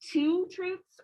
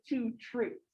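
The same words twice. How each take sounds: First: "two" punched and stretched before "truths"; stress on TWO. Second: "truths" carrying the weight after "two"; stress on TRUTHS. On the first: Teacher shows students a choice of emphasis, stress on "two". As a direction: lean hard on the word "two". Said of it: "do you emphasize two truths or". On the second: Teacher shows students the other choice, stress on "truths". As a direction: put the emphasis on "truths", not "two". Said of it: "or do you emphasize two truths". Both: Shown as a demonstration.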